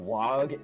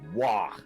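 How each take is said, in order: First: The word ends with a hard g sound. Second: The word ends with a breathy guttural h sound. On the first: The speaker calls it wrong. "with the G at the end" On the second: The speaker calls it right. "more guttural"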